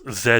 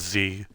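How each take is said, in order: First: The letter is said the British way. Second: The letter is said the American way. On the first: "for British" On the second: "American is Z"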